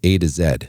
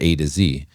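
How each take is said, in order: First: The letter Z is said the Australian way. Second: The letter Z is said the non-Australian way.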